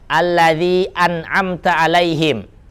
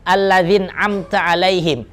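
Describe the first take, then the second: First: A glottal stop separates the words before an'amta. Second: The glottal stop is dropped and an n links. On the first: The speaker calls it right. "jangan sampai hamzanya itu hilang" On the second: The speaker calls it wrong. "Kalau kebaca seperti tadi alladzin amta, tek, batal"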